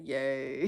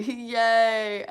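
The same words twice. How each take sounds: First: Said in the usual way. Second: Much louder, raised mock cheer; possibly sarcastic cheer. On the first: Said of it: "He said". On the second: Streamer reading out a viewer's yay, loud mock cheer. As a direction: burst out with an over-big yay. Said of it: "Is that sarcasm?".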